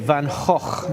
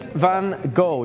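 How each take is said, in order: First: The name is pronounced with Dutch sounds. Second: The name is pronounced with English sounds.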